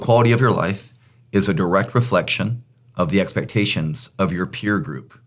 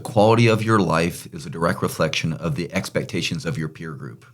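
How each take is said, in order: First: The sentence is spoken at a slower pace. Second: The sentence is spoken at a normal pace.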